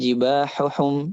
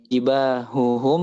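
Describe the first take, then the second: First: The middle h is a harsh throaty sound. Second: The middle h is a light breathy sound.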